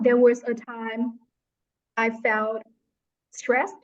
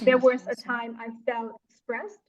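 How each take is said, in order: First: The sentence has a hesitant pause midway. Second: The sentence flows without any pause. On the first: The speaker calls it wrong. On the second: The speaker calls it right. "you should say that"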